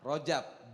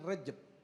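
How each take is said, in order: First: The first vowel is an open 'a' sound. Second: The first vowel is an 'e' sound. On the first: The speaker calls it right. "Rajab, bukan Rejab" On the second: The speaker calls it wrong. "bukan Rejab"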